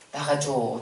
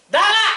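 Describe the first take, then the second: First: It is said as a pleading request. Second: It is said as a forceful command.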